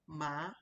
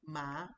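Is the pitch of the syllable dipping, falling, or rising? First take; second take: rising; rising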